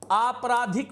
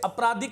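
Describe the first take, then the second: First: The first vowel is long. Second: The first vowel is short. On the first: The speaker calls it right. "बोलिएगा" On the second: The speaker calls it wrong. "नहीं कहिएगा"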